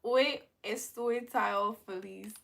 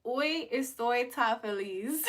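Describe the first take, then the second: First: Slow, steady hoy estoy tan feliz; slow careful Spanish. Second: Slow, deliberate hoy estoy tan feliz; slow careful Spanish. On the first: Streamer repeating the Spanish phrase, slow and careful. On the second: Streamer trying Spanish for chat, slow and careful. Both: Shown as a demonstration. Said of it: "I said I'm so happy".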